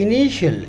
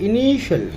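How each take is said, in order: No difference in how they are said.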